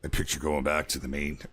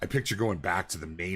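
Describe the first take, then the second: First: It is said in a put-on soldier voice. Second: It is said in a normal speaking voice.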